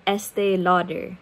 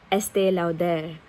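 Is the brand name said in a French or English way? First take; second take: English; French. First: The name is said with a plain English pronunciation. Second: The name is said with a French-style pronunciation. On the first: "I could have pronounced it as Estee Lauder" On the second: "I keep saying Estee Lauder ... because it is French"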